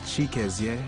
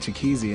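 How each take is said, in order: First: The name is said in its Igbo form. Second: The name is said in an Americanized form. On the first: This is the name's true native form. The speaker calls it right. "The original pronunciation is" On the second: This is how others came to say the name. The speaker calls it wrong. "my teacher just called me"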